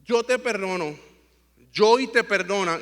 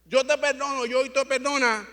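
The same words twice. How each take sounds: First: Measured, unhurried granting of pardon; retold forgiveness. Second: Higher, insistent "te perdono, te perdona"; affirming forgiveness. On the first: Father retells forgiving his son after the fall, measured reassurance. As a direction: forgive him, phrase by phrase. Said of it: "Y yo le dije, "Papi". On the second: Retold or imitated. Father affirms to his son that both forgive him, emphatic affirmation. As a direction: affirm the pardon firmly, pitch lifted. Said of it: "yo estaba afirmándolo".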